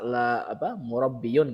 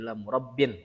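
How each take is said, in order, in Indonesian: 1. Kata ini berakhir dengan akhiran -iyun penuh. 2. Kata ini berakhir dengan akhiran -in pendek. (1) "tidak bisa ... nggak bisa" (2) "Jadi la murabbin"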